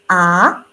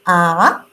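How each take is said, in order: The two takes are said the same way.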